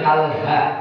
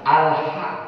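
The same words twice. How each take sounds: First: The h is a loose breathy sound from chest. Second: The h is a tight sound from mid-throat. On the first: The speaker calls it wrong. "beda dengan" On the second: The speaker calls it right. "kalau ha itu adalah pada tengah tengah tenggorokan"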